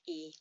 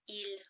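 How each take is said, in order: First: The word is said without the l sound. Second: The word ends with a clear l sound.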